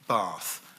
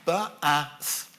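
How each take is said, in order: First: The word is blended into one smooth syllable. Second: The word is sounded out in separate parts. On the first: "putting sounds together to pronounce a word" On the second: "going through the process of synthesis"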